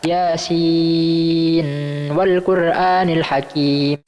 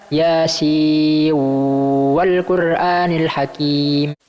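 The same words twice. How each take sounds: First: The n is pronounced clearly before the w. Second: The n blends into the following w sound. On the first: "dengan dibaca idhar" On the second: "diidghamkan kepada wawu setelahnya"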